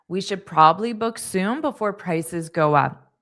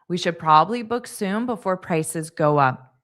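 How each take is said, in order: Both takes have the same delivery.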